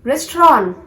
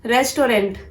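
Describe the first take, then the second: First: "restaurant" as RES-traw; "restaurant" French-style, ending in an open AW; correct restaurant. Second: "Restaurant" as RES-to-rent; "Restaurant" in three full syllables; mispronounced restaurant. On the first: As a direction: punch two syllables in "restaurant", no final N-T. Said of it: "to be pronounced as". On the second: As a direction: sound the final N-T of "Restaurant". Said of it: "this is not restaurant". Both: Shown as a demonstration.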